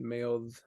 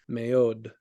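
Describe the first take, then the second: First: The final consonant is a soft, unstopped sound. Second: The final consonant is a hard stopped D. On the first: This is the more ancient pronunciation. "in a little bit more ancient context" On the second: This is the more modern pronunciation. "she will do the hard plosive D"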